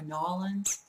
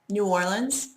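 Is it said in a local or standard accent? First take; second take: local; standard. First: It is said in a clipped local way. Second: It is said in a plain, standard way.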